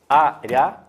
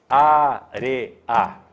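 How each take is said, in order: First: The ending is merged, giving two syllables. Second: The ending is split, giving three syllables. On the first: The ending is a diphthong. "são duas palmas?" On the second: The ending is a hiatus. "ou são três?"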